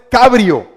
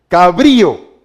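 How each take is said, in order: First: The stress is on the first syllable. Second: The stress is on the second syllable. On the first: The speaker calls it wrong. "no es cabrio" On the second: The speaker calls it right. "¿Dónde tiene la i, la, la tilde? En la i"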